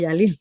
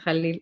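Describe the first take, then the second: First: The name begins with a soft Y sound. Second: The name begins with a harsh throaty J sound. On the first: It follows the pronunciation used in Arabic culture. The speaker calls it wrong. "por eso te llamo Yalil" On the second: It follows the pronunciation used by the name's owner. The speaker calls it right. "por eso es J, ¿no? De Jalil"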